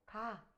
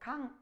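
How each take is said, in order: First: The syllable ends in a plain vowel. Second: The syllable ends with an ng sound. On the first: The speaker calls it right. "가 이렇게 읽었다는 거예요" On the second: The speaker calls it wrong. "강 이렇게 안 읽고"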